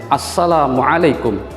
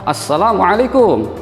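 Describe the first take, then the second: First: The final syllable kum is said short. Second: The final syllable kum is drawn out long. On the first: The speaker calls it right. "ketika mengucapkan kum itu harusnya adalah pendek" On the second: The speaker calls it wrong. "kumnya itu dipanjangkan"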